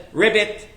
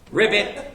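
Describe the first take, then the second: First: The word ends with a T sound. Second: The word ends with a T sound.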